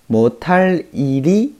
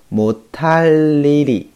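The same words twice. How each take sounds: First: The words join with no added sound. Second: An extra sound is added between the words. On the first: "本来是这样的啊" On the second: "因为这个地方会有一个音变，一个添加音啊，所以读的时候呢最好读成"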